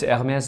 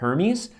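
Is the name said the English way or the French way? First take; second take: French; English. First: The name is said with a French pronunciation. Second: The name is said with an English pronunciation. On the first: "It's Hermès de Paris" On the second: "I don't know how people say it in English, like Hermes"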